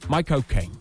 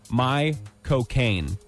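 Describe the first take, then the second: First: The phrase is said at a fast pace. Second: The phrase is said at a slower pace.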